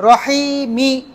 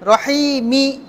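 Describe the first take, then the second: The two takes are said the same way.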